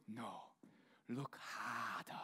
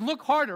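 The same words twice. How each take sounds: First: Low, slow, soft wise baboon voice; hushed Rafiki voice. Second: Higher, louder Rafiki take; lightly voiced Rafiki. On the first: Pretend. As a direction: drop low and drag it out like the old baboon. Rafiki line, deep and slow. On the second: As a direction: punch it out as the wise baboon. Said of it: "I practiced that for the week".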